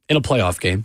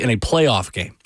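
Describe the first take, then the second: First: The phrase is said at a normal pace. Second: The phrase is said slowly and deliberately.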